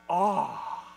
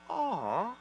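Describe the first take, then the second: First: It sounds full of wide-eyed wonder and excitement. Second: It sounds like a soft, sympathetic coo.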